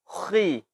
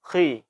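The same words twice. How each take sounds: First: The heavy sound is strongly exaggerated. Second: The heavy sound is moderate and slightly reduced. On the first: The speaker calls it wrong. "Tidak boleh. Tidak dibenarkan" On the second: The speaker calls it right. "Ketebalannya kita kurangi sedikit"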